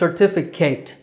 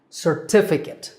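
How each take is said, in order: First: The last syllable sounds like kate. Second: The last syllable sounds like kit. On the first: The speaker calls it wrong. "students mispronounce this word as certificate, but your name doesn't have to be Kate" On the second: The speaker calls it right. "that last syllable is kit"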